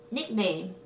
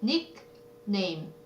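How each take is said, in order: First: Said in the usual way. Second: "nickname" softly split into nick, pause, name; syllable by syllable. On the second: Shown as a demonstration. Teacher answering a vocabulary question, "nickname" in separate pieces. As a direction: sound out the two halves of "nickname". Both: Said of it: "이거 붙여서 써야 돼요".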